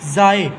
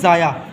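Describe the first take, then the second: First: The word ends in a plain 'e' vowel. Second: The word ends in a 'ya' syllable. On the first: The speaker calls it right. "पहला लफ्ज़ है हमारे पास ज़ाए" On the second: The speaker calls it wrong. "इसको लोग पढ़ते हैं ज़ाया"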